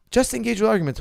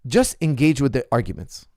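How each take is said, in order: First: "Just engage with arguments" pitched much higher, insistent; emphatic repeat. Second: Said in the usual way. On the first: Real, not acted.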